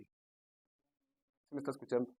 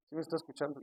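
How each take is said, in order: First: Drawn-out, softer ask to the congregation; slow quiet call for attention; slow checking question. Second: Said in the usual way. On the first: Shown as a demonstration. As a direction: stretch it slowly and quietly.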